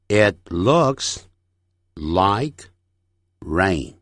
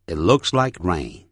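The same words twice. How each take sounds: First: Slow, with long pauses between words; careful, broken-up sentence drill; word-by-word model. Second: Said in the usual way. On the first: Shown as a demonstration. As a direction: separate each chunk for learners. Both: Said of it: "整句练习".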